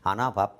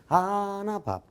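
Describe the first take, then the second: First: It is read plainly, without a marked rhythm. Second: It is read with a strong, bouncy rhythm. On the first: The speaker calls it wrong. "여러분들은 아나 밥, 아나 돈, 아나 쌀 이렇게 읽어" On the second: The speaker calls it right. "이 리듬을 타고 얘기를 하면 절대 안 주겠다는 뜻으로 이렇게 읽어야 돼"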